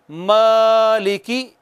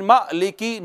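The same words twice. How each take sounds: First: मालिकी with ा held calmly, no jerk; smooth long alif. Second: मालिकी cut short with a jolt; wrong, jerked alif. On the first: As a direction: draw out मालिकी gently. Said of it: "बगैर झटके के proper आराम सुकून से". (मालिकी, आराम से बगैर झटके) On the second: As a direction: show the wrong quick मालिकी. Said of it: "यूं नहीं पढ़ना". (मालिकी, झटके वाला गलत तरीका) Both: Shown as a demonstration.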